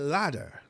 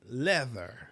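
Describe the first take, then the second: First: The middle consonant is a hard 'd' sound. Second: The middle consonant is a soft 'th' sound. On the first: The speaker calls it wrong. "I will say ladder" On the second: The speaker calls it right. "instead of saying leather"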